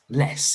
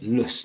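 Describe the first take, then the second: First: The vowel is full and clear. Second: The vowel is weak and reduced. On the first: "if we read it on its own, it's less" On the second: "I'm pronouncing it lus there"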